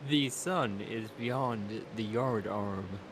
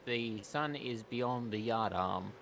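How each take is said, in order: First: It is said in a put-on posh voice. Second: It is said in a plain, normal voice.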